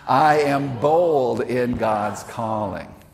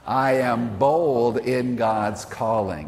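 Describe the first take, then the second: First: It is said forcefully, with strong conviction. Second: It is said in a calm, ordinary way. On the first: "like you really mean it" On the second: "Say that with me, please"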